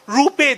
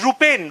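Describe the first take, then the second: First: The name ends without an N sound. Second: The name ends with an N sound.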